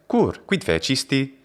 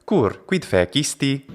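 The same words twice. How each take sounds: The two takes are said the same way.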